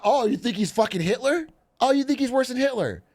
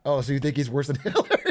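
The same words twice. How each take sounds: First: High-pitched imitation of indignant critics; hammed-up high, indignant challenge; mock-serious accusation. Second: Quick question breaking into laughter; laughing mock accusation; joking. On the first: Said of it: "and they're not". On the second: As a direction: ask it as a joke and crack up. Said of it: "you're joking and they're not".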